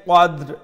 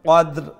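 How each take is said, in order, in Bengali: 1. শব্দটি শেষে একটি স্পষ্ট r ধ্বনি দিয়ে শেষ হয়। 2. শব্দটি শেষে একটি স্পষ্ট r ধ্বনি দিয়ে শেষ হয়।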